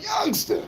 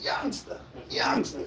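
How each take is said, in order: First: Squeaky high come-on; high teasing call; mock cougar call. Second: Hushed breathy come-on; soft teasing call; mock cougar call. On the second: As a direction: whisper it like a lady beckoning. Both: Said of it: "She like".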